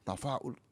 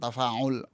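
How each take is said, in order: First: The word is said with a glottal catch. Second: The word is said without a glottal catch. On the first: The speaker calls it right. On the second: The speaker calls it wrong. "Bukan tafa'ul"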